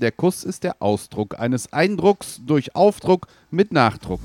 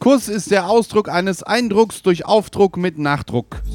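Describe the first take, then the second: First: It is said at a slow pace. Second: It is said at a quick pace.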